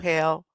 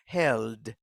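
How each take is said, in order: First: The word ends without a D sound. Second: The word ends with a clear D sound. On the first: The speaker calls it wrong. "no hell. Hell is something different" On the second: The speaker calls it right. "This is held with a D at the end"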